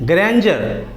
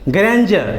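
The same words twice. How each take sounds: Both takes have the same delivery.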